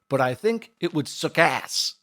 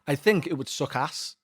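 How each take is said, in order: First: It is said with an American-sounding accent. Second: It is said in the speaker's own British accent.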